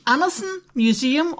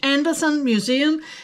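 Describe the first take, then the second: First: The name is pronounced the Danish way. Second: The name is pronounced the English way.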